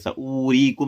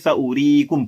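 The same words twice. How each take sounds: First: The vowel on the w sound is stretched long. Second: The vowel on the w sound is kept short. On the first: The speaker calls it wrong. "खींचकर अदा नहीं करेंगे, सऊरीकुम नहीं करेंगे आप" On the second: The speaker calls it right. "बल्कि सऊरीकुम पढ़ेंगे"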